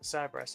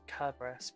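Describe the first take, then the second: First: The name begins with a soft S sound. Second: The name begins with a hard K sound. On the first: "does he pronounce it Cerberus" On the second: "at the time the language had no uh, soft C sounds, so Cerberus is uh, technically pronounced Kerberos"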